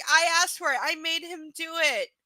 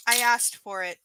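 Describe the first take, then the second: First: Mocking repeat. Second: Said in the usual way. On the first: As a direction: repeat "I asked for it" with pointed sarcasm. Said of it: "the line right out of the domestic violence handbook". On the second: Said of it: "there's the line right out of the domestic violence handbook".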